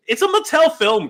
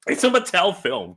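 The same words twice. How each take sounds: First: It's a Mattel film said much higher and louder; excited, pointed Mattel film; emphatic. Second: Said in the usual way. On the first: Real, not acted. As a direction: hit a Mattel film hard and high.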